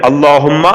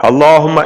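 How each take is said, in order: No difference in how they are said.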